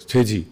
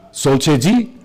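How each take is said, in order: First: A calm Tamang reply, "Cheji" dropping down. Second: "Sol Cheji?" in Tamang, rising at the end as a question; a friendly Tamang question, "Cheji" lifted; Tamang greeting question. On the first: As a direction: answer "Cheji." settled and falling. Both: Retold or imitated. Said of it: "this is all the Tamang".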